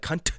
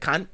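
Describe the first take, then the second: First: The final T is released sharply and hard. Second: The final T is soft or barely released. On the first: It sounds harsh and hurtful. The speaker calls it wrong. "I don't like when you pronounce the T" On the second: It sounds friendly and endearing. The speaker calls it right. "like when an Australian says it"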